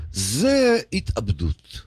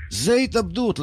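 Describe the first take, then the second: First: זה התאבדות drawn out slow and low, falling at the end; grave and slow. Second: זה התאבדות said higher, with התאבדות rising at the end; rising emphasis. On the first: The speaker judges fans who waste the Sabbath, slow and low. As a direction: let זה התאבדות sink, slow and heavy. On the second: The speaker repeats his verdict on football, higher and rising. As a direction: lift זה התאבדות up as a raised point. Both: Shown as a demonstration.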